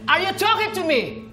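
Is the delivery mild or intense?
intense. It is said with more intense emotion.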